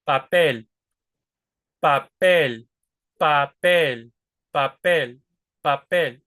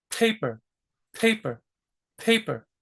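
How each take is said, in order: First: Papel with an unaspirated P, no puff of air; Spanish P. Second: Paper with a puff of air on each P; aspirated English P. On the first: Teacher shows the Spanish P of papel. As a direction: hold your breath and say papel. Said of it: "Now watch the Spanish P". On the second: Teacher repeats breathy English paper. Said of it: "Because it's aspirated". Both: Shown as a demonstration.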